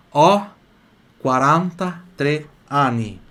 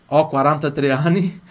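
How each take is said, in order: First: "ho quaranta e tre anni" in slow, separated words. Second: Said in the usual way. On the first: Shown as a demonstration. Teacher modelling age for students, slow word by word. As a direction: punch "ho", pause, then stretch "quaranta e tre anni". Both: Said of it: "eu falo assim".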